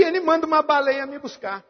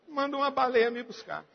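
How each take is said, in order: First: Higher, quick retort; resposta desafiadora. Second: Retorta repetida em voz baixa. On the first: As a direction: toss it out high and fast. Repete a própria resposta bem-humorada. (resposta rápida em tom mais agudo) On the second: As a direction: drop it to a quiet aside. Repete a resposta em tom baixo. (repetição baixinha, como um aparte) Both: Retold or imitated.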